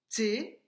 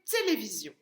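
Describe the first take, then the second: First: "Télévision" broken up with a clear pause after each syllable; split into syllables. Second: Said in the usual way. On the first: Shown as a demonstration. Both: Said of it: "On avait frappé les syllabes".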